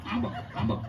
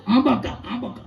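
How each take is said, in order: First: "આંબક, આંબક" dropped much lower and much softer; a muttered "આંબક" repeated low and soft; low mumbled babble. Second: Mock baby babble. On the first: Retold or imitated. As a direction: let "આંબક, આંબક" sink to a low murmur. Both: Imitating baby-carrying mother.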